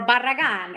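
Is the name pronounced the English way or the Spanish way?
Spanish. The name is said with Spanish sounds.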